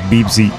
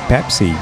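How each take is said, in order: First: The word begins with a B sound. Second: The word begins with a P sound.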